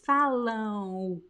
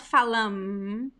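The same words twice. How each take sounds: First: It ends on a nasal vowel, lips apart. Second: It ends with the lips closing on an M. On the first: The speaker calls it right. "don't touch your lips when you speak this word" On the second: The speaker calls it wrong. "It's not falam"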